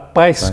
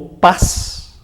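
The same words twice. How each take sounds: First: An i glide is added before the S. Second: The vowel has no added i glide.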